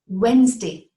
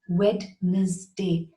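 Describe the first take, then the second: First: It is said with two syllables. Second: It is said with three syllables. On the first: The speaker calls it right. "It is Wednesday, two syllables" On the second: The speaker calls it wrong. "The D is silent and it does not have three syllables, not Wednesday"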